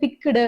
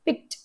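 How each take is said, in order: First: The ending is said as an extra syllable. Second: The ending is a plain final t sound. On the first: The speaker calls it wrong. "ரொம்ப அழுத்தி வந்து படிப்பாங்க" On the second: The speaker calls it right. "டீல முடிஞ்சதுன்னா எப்படி படிப்போம்? அந்த மாரி தான்"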